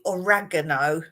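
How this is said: It is said with an American pronunciation. "Americans would say oregano"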